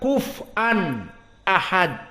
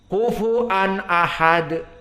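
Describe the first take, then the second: First: The f has no vowel after it. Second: The f is followed by a u vowel. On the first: "namun disukunkan fa-nya" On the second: "Fa-nya didomahkan dan hamzahnya dibaca"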